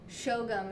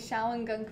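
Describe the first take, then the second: First: The name is said in a short, contracted form. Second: The name is read out fully as spelled. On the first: The speaker calls it right. "Shogum is how they pronounce it" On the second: The speaker calls it wrong. "I was pronouncing this Shawangunk, because that's what it looks like to me"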